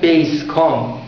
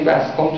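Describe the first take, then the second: First: The first vowel sounds like in 'base'. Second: The first vowel sounds like in 'bass'. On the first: The speaker calls it wrong. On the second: The speaker calls it right.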